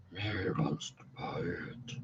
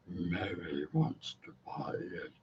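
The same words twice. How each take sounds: First: Very deep, breathless demon whisper. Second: Very deep rasping demon growl. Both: Acted. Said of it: "That's my demon voice".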